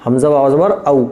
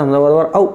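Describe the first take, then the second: First: औ neither stretched nor rushed; correct reading. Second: औ stretched long, the wrong way; wrong drawn-out reading. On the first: Teacher giving the right length of औ. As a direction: say औ at a medium length. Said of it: "ना खींच के पढ़ा जाएगा ना जल्दी". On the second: Teacher showing the wrong long औ. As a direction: drag out the औ too long. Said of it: "तो गलत है". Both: Shown as a demonstration.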